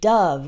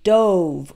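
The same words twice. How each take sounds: First: The vowel is a short uh sound. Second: The vowel is a long O sound. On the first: "with an uh sound" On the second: It is the past tense of dive. "with a real strong O sound"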